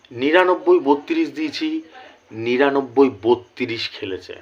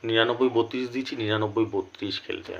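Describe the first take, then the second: First: Slow, measured, emphatic number call; emphatic result announcement. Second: Subdued, pained repeat. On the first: Vlogger announces a winning number to viewers, slow and emphatic. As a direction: announce each number slowly and proudly. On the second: Vlogger with a headache repeats the result, softly. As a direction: let the voice sink, sparing an aching head. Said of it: "মাথায় ব্যথা করছে". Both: Real, not acted.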